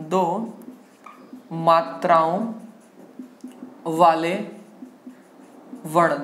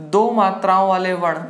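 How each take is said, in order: First: Word-by-word dictation. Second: Said in the usual way. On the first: Shown as a demonstration. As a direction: lower voice, long pause after each word. Teacher dictates heading word by word.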